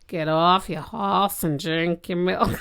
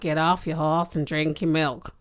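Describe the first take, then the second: First: It is said more slowly. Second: It is said at normal speed.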